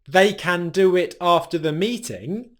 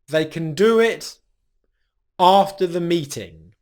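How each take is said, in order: First: The word can is said fully and strongly. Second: The word can is said weakly and reduced. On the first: "the strong pronunciation of can" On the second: "reduce it to its rhythmic pronunciation"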